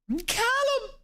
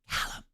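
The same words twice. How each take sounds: First: It is said in a normal voice. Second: It is said in a whisper.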